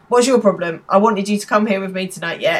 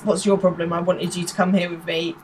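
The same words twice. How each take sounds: First: Retold telling-off. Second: Said in the usual way. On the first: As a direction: act out scolding someone, lightly. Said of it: "giving him a massive bollocking". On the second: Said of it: "Sorry, she says".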